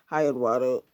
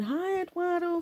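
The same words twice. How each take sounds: First: Lightly lower, wary guy greeting; a hint of nervous guys saying hi; plainer, lower take. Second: High, sweet flirty greeting, lightly voiced.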